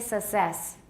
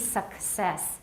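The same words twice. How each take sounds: First: There is no k sound before the s. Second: A k sound comes before the s. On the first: The speaker calls it wrong. "many Taiwanese say success. They don't say success" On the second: The speaker calls it right. "It should be success"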